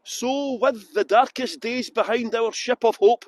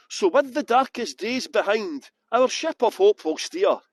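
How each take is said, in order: First: "So with the darkest days behind our ship of hope" read slowly, with no break after "behind"; no comma pause. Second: Slow reading with a clear break after "behind" before "our ship of hope will steer"; comma pause. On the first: Guide reading the Leaf motto, no pause after "behind". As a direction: run "behind our ship" together in one slow line. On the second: Guide rereading the Leaf motto with the comma pause. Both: Shown as a demonstration. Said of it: "that should have been a comma there".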